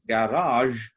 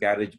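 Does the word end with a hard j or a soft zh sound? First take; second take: soft zh; hard j. First: The word ends with a soft zh sound. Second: The word ends with a hard j sound. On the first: The speaker calls it right. "it is garage because it's a French loan word" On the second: The speaker calls it wrong. "we tend to pronounce it as garage"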